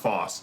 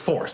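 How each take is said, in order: First: The r sound is dropped. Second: The r sound is clearly pronounced. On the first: "instead of Foss" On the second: "I just said force"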